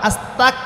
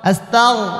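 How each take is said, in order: First: The consonant after 'asta' is a plain k. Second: The consonant after 'asta' is a throaty gh. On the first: Asking to become an unbeliever. The speaker calls it wrong. "এই যে অনেকে আস্তাক বলছেন" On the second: Asking forgiveness for sins. The speaker calls it right. "গইন, এটা থ্রোট"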